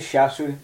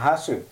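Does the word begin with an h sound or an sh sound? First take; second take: sh sound; h sound. First: The word begins with an sh sound. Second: The word begins with an h sound. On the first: The speaker calls it wrong. "if you say shasu, you're saying it wrong" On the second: The speaker calls it right. "So we say ta she and a hasu"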